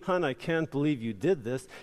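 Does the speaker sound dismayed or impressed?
dismayed. It is said in a dismayed, disapproving tone. The work was done badly. "instead of saying"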